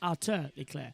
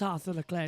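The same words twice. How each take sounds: First: The name is said in a French way. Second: The name is said in a non-French way. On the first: The speaker calls it right. "it's a Monegasque French pronunciation" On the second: The speaker calls it wrong. "It's not Arthur Leclerc"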